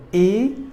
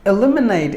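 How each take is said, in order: First: "E-lim-e-nate" in four separate pieces; syllable by syllable. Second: Said in the usual way. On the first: Shown as a demonstration. Teacher breaking down the word for learners, "E-lim-e-nate" split up. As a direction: pause between each part of "E-lim-e-nate". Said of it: "stress the second syllable". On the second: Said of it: "Word number three".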